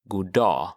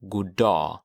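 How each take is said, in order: First: The two words run together, G dropped. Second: The same.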